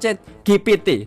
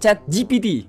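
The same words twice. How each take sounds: First: The letter G is said like 'gay'. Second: The letter G is said like 'jee'.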